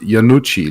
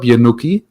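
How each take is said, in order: First: The name is said in the Italian way. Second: The name is said in a non-Italian way. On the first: This is how the owner says the name. The speaker calls it right. "like it, the Italian way" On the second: Someone else got the name wrong. The speaker calls it wrong. "first thing the streamer does is mispronounce my name"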